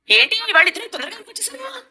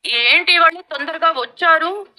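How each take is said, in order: First: Pointed, biting question, a bit higher; sharp. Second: Slow, mild re-asking to show no sting; innocent replay. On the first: Real, not acted. Mother-in-law questioning the late couple, sharply. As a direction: ask it with a sting. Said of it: "అంత ఘాటుగా అడిగావు". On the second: Shown as a demonstration. Mother-in-law replaying her question, mock innocent. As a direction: say it slowly as if harmless. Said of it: "ఇన్ని లవంగాలున్నాయా".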